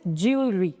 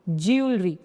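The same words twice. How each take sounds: Both takes have the same delivery.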